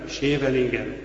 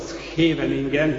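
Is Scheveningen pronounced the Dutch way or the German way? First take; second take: German; Dutch. First: It is said with a German pronunciation. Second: It is said with a Dutch pronunciation. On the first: The speaker is a foreign occupier. The speaker calls it wrong. "ez nem holland, hanem ez német" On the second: The speaker is a native local. The speaker calls it right. "így kell kiejteni"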